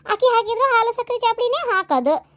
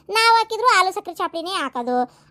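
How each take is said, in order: First: ಆಕಿ stressed, higher. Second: ನಾವ್ leaned on at the start; stress on ನಾವ್. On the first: Arguing with mother-in-law, ಆಕಿ stressed higher. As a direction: punch ಆಕಿ to contrast. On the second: Arguing with mother-in-law, ನಾವ್ stressed. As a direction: hit ನಾವ್ hard. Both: Acted. Comparing who makes the tea.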